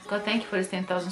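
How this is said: It sounds casual and indifferent.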